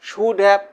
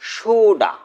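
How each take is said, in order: First: Both words are said fully and separately. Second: The words blend into one short reduced word. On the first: "পূর্ণরূপ" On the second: "assimilation"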